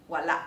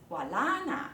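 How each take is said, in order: First: "wala" cut off at the final a; glottal stop. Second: "wala na" with a lengthened second a; no glottal stop. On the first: Teacher demonstrating to learners, "wala" with final glottal stop. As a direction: end "wala" on a sudden throat catch. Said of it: "顿一下". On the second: Teacher showing learners linked words, "wala na" without a catch. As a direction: glide from a long "la" straight into "na". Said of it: "没有顿一下了". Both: Shown as a demonstration.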